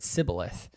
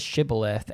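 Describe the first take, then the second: First: The word begins with an s sound. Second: The word begins with a sh sound. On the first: This reveals the speaker as an outsider. The speaker calls it wrong. "They didn't say the S H properly. They said sibboleth" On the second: This is the intended pronunciation. The speaker calls it right. "the word that they say is shibboleth"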